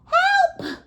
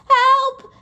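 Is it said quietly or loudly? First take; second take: quietly; loudly. First: It is said quietly. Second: It is said very loudly.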